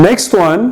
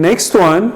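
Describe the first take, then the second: No difference in how they are said.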